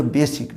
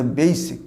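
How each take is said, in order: First: "বেসিক" with a short pure e, be-sik; everyday be-sik for basic; mispronunciation. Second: "বেসিক" as bey-sik, gliding first vowel; correct pronunciation. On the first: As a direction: say "বেসিক" without any glide in the first vowel. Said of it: "এর উচ্চারণটা বেসিক নয়". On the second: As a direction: say "বেসিক" with ei in the first syllable and a short i. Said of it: "উচ্চারণটা বেসিক". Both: Shown as a demonstration.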